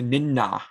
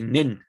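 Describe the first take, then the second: First: The final vowel is fully voiced and hard. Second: The final vowel is dropped entirely. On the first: "don't pronounce it as a hard ah. Don't say ninna" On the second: "you could also drop this a at the end to just say nin"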